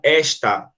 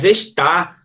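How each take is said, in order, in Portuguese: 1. A tônica está na primeira sílaba. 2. A tônica está na última sílaba.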